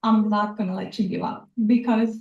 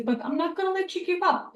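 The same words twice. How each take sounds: First: Said in the usual way. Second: Teary, higher and quicker, softer; after crying. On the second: Real, not acted. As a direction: push through the tears. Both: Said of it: "sorry, I always get teary-eyed".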